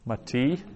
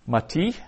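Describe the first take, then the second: First: Said in the usual way. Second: Mati said high and rising, each syllable clear; emphatic citation. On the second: Shown as a demonstration. Teacher modelling Mati for Hebrew learners, high rising citation. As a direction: announce Mati like a flashcard, lifting at the end. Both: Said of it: "teacher drills Hebrew vocabulary".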